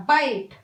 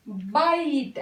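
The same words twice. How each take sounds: First: बाइट said with a clear "ai" vowel, baiʈ; correct ai vowel. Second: बाइट said as plain "bat"; wrong short vowel. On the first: Teacher giving children the right बाइट with ai. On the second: Teacher showing children the wrong बाइट. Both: Shown as a demonstration. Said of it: "ऐ की मात्रा".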